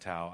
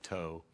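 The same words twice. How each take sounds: First: It does not sound like the word 'tow'. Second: It sounds like the English word 'tow'. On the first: This is how the locals say it. "but they call it Tow" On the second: This is how the spelling suggests it. "like tow"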